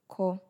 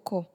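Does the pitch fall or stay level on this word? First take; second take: level; falls. First: The pitch stays level on the word. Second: The pitch falls on the word. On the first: It means to write. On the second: It means to refuse.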